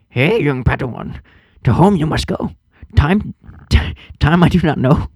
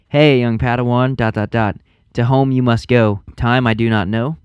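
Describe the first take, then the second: First: It is read in a Yoda impression. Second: It is read in his normal voice.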